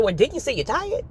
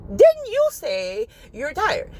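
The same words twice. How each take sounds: First: Lightly voiced reply from God; just ask it back plainly; God's reply, plain. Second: Slow, higher, stretched pointed question; God's pointed reply. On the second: Retold or imitated. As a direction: drag out "Didn't you say you're tired?" as a knowing rebuke from God. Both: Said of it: "He's like".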